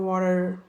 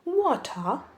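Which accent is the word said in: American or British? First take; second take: American; British. First: It is said in an American accent. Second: It is said in a British accent. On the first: "अगर कोई American बोलेगा तो वो बोलेगा वाटर" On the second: "अगर किसी British को बोलनी होगी, वो बोलेगा वाटर"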